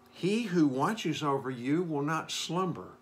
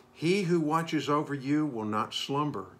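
No difference in how they are said.

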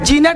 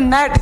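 First: The g sound is pronounced. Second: The g sound is silent. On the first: The speaker calls it wrong. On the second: The speaker calls it right.

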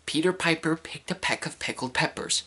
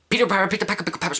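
First: It is said slowly. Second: It is said very fast.

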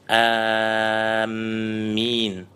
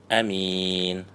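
First: The first vowel is long and the m is doubled. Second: The first vowel is short and the m is single. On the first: "протягивая первый звук и удваивая мим" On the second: "не удлиняя хамзу и не удваивая мим"

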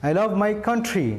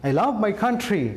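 Both takes have the same delivery.

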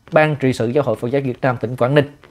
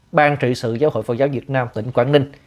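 Both takes have the same delivery.

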